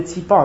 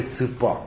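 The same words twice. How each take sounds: First: "țipa" with a clear i vowel; standard pronunciation. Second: "țâpa" with a dark central â vowel; dialect pronunciation. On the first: Speaker contrasting city word with dialect, standard pronunciation. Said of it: "nu de țâpa". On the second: Speaker contrasting village word with standard, dialect pronunciation. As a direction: say "țâpa" with â, not ee. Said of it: "oamenii știau de țipa". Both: Shown as a demonstration.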